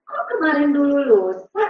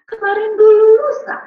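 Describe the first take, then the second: First: Said in the usual way. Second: Put-on high, loud little-kid voice; lifted, louder child voice; retold child's answer. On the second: Child answers grandmother in retold story.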